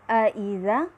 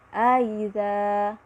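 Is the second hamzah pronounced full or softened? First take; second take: full; softened. First: The second glottal stop is pronounced fully. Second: The second glottal stop is softened and eased.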